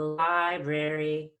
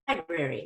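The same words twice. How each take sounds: First: The pitch rises one small step on brary. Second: The pitch rises a larger step on brary. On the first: "might just up one whole step" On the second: "You could go up a little more. You could go up a couple"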